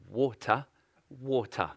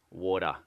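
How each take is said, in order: First: "water" said the English way, crisp t and no r; proper English "water", twice; British RP "water", carefully said. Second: Broad Aussie "water"; casual Australian "water", flat vowel. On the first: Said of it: "English, they say it the best". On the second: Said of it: "We, we say water". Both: Shown as a demonstration.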